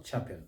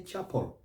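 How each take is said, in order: First: "chapel" with a full -pel ending; wrong full EL. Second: "chapel" as CHAP-ul; silent E. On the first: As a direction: sound the e in "chapel". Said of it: "not chapel". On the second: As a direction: swallow the e in "chapel". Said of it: "that syllable". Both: Shown as a demonstration.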